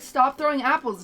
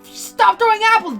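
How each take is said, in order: First: It is said flatly, with little energy. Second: It is said with full dramatic energy. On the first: The actor is holding back effort. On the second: The actor gives the line full effort.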